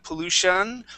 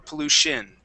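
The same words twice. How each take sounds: First: The ending sounds like 'shun'. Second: The ending sounds like 'shin'. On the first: "pronounce that ending like an un sound" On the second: "either with an un or an in"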